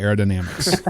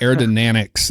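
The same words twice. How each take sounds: First: Said in the usual way. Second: "aerodynamics" as "air-duh-NAN-ics", n for m; imitated mispronunciation. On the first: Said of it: "instead of". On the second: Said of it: "and they would say".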